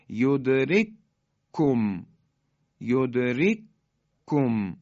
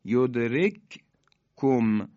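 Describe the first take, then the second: First: یدرککم chanted very slowly with one doubled کاف; merged recitation. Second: یدرککم chanted slowly, the two کاف named apart; unmerged recitation. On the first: Teacher demonstrating idgham of کاف to students, very slow chant. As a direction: press the two کاف into one strong کاف. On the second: Teacher showing the two کاف before merging, very slow chant. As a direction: recite یدرککم slowly, first کاف still silent-held. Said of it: "کاف اولی ساکنه". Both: Shown as a demonstration.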